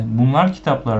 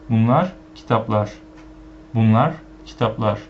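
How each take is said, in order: First: Bunlar kitaplar with the wrong weight; wrong stress. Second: Bunlar kitaplar as these are books, Bunlar stressed; right stress. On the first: Teacher showing the weird wrong way to learners. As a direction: put the stress where it sounds odd. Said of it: "with this stress, it'll be weird and wrong". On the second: Teacher modelling the correct these are books. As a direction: lead with Bunlar, then finish kitaplar falling. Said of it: "you have to say it sounded like this". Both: Shown as a demonstration.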